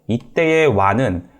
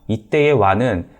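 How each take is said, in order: Both takes have the same delivery.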